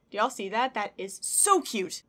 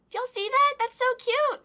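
First: Slow, weighty stress on "so cute"; emphatic admiration. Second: High, loud cute-overload squeal; gushing delight. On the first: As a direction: draw out "so cute" in normal register. Repeats it in lower register. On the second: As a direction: squeal it to the viewers, thrilled. Gushing over gift pin. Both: Real, not acted.

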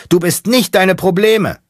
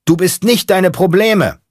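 First: Very high, loud yell; shouting. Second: High, loud chant from the back seat; shouted echo. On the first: Mechanic shouting his creed from the driver's seat. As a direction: scream the line out. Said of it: "Der Mechaniker schreit". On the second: Space monkey in the back seat echoing the mechanic, shouting. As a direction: yell it back like a disciple. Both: Acted.

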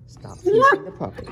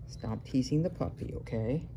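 First: "Stop teasing the puppy" called out much higher and louder; sharp raised warning to the cat; loud high scold. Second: Said in the usual way. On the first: Real, not acted. Repeat telling off cat.

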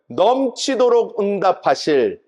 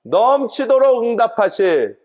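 First: Slow, stressed 넘치도록 with falling tune; call to repeat. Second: Slow, stressed 넘치도록 again, falling; drawn-out echo of 넘치도록 응답하실; call to repeat. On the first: Pastor leading congregation in repetition, slow stressed chant. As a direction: lead the crowd to echo 넘치도록 응답하실 slowly. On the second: Pastor repeating phrase for congregation, slow stress. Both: Shown as a demonstration. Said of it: "따라해 볼까요?".

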